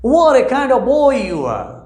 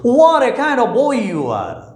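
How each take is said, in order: No difference in how they are said.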